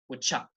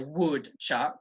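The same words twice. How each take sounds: First: 'Would' is said quickly, with a weak vowel. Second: 'Would' is said fully, with a strong vowel. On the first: The speaker calls it right. "I say would chuck. ... the modal verb would, it has a weak sound" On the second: The speaker calls it wrong. "I don't say would chuck"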